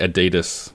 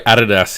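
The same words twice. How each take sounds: First: It is said the American way. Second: It is said the Australian way. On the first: The speaker calls it right. "it's clearly Adidas, over in the States" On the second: The speaker calls it wrong. "we also say Adidas here"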